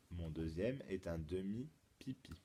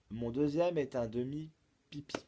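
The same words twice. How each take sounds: First: Lower, softer restatement of the clue; subdued repeat. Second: "Mon deuxième est un demi-pipi" as a presented clue; riddle recital. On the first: Teacher repeats the clue for pupils, low and soft. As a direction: repeat it quietly for them to think over. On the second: Teacher poses the second clue, projected riddle recital. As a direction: announce the clue clearly and brightly projected. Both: Shown as a demonstration.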